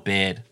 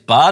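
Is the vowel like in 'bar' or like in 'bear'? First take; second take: bear; bar. First: The vowel sounds like the one in 'bear'. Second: The vowel sounds like the one in 'bar'. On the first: The speaker calls it right. "Do you think his name is Bard or Baird?" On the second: The speaker calls it wrong. "Do you think his name is Bard or Baird?"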